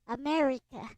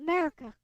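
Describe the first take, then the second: First: The vowels are pronounced as full vowels. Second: The vowels are reduced to short schwa sounds. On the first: "say it like I do, ... use the actual e sound" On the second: "like use a schwa and everything"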